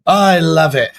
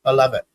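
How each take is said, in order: First: Louder, more excited repeat of I love it. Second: Said in the usual way. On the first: Real, not acted. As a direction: really belt out I love it. Host repeating his reaction, louder.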